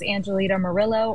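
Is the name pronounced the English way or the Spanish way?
English. The name is pronounced with English sounds.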